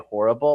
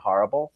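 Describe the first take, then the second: First: It is said in a general American accent. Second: It is said in an upstate New York accent. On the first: This is the form the speaker does not use. "I don't say horrible" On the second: This is the form the speaker actually uses. "I say horrible... definitely a New York"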